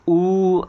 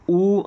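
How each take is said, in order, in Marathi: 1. स्वर जवळजवळ तिप्पट वेळ ताणून उच्चारला जातो. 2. स्वर जवळजवळ दुप्पट वेळ उच्चारला जातो. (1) "असं याचं तीन मात्रापर्यंत" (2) "आपण दोन मात्रापर्यंत"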